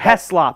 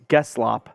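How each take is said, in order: First: The name begins with an H sound. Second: The name begins with a hard G sound. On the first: The speaker calls it right. "It's Gavin Heslop" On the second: The speaker calls it wrong. "I had the G, but in the wrong spot"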